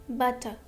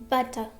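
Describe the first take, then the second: No difference in how they are said.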